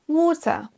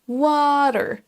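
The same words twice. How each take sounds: First: It is said in a British accent. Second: It is said in an American accent. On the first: "avec l'accent britannique" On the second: "avec l'accent américain"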